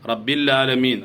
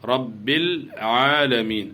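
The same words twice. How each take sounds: First: The ain sound is dropped, giving 'laalameen'. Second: The ain sound is clearly pronounced before aalameen. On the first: The speaker calls it wrong. "ലാലമീൻ എന്ന് പറഞ്ഞാൽ ഐന് കാണുന്നേ ഇല്ല" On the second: The speaker calls it right. "വളരെ ശ്രദ്ധിക്കണം"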